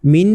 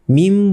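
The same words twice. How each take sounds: First: মিন ending in a clear n; original n sound. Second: মিম with the lips closing on a final m; n changed to m. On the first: Teacher shows the unchanged form, মিন ending on n. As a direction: say মিন as written, tongue-tip n at the end. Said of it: "এটা কিন্তু মিন হওয়ার কথা ছিল". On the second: Teacher shows iqlab, মিম ending on m instead of n. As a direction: turn the last n into m, মিম. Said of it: "তাই এটাকে মিম বলতে হবে". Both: Shown as a demonstration.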